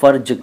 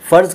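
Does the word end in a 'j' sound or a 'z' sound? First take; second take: j; z. First: The word ends with a 'j' sound. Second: The word ends with a buzzing 'z' sound. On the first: "आगे ज़ को ज कर देते हैं" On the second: "फ़र्ज की जगह"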